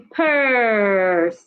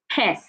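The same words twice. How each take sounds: First: The vowel is held long. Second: The vowel is cut short. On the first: The speaker calls it right. "take your time and say purse" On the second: The speaker calls it wrong. "not purse"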